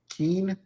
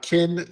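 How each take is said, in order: First: The vowel is long, as in 'keen'. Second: The vowel is short, as in 'kin'. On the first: The speaker calls it wrong. "like Keen or something like that" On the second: The speaker calls it right. "it's actually Kin"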